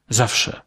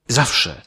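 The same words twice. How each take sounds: The two takes are said the same way.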